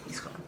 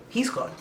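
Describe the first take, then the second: First: He's gone almost breathed away, much softer; faded echo. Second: Said in the usual way. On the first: Shown as a demonstration. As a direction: let He's gone die out to nothing.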